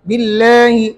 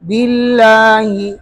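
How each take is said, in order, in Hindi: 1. लंबा स्वर 'e' की ओर झुका हुआ है। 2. लंबा स्वर खुला 'a' ही रखा जाता है।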